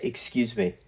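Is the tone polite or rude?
polite. It is said in a polite, gentle tone.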